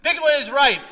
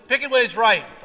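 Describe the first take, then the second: First: Even higher, loud motto; louder slogan. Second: Louder, higher motto; loud slogan. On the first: Preacher repeating the slogan, louder proclamation. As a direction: belt the motto again. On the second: Preacher quoting a wine slogan, loud proclamation. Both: Retold or imitated.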